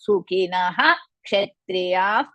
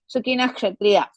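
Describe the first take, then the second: First: The first word ends with a clear 'ha' sound. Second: The first word ends without a final 'ha' sound. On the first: The speaker calls it right. "Completely we have to say that" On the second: The speaker calls it wrong. "nobody is going to say Sukina Kshatriya"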